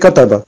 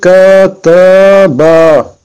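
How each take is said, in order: First: The first vowel is kept short. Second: The first vowel is drawn out long. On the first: "mais on n'a pas alif, donc on dit" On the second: "si on aurait eu alif dans kataba, on aurait eu"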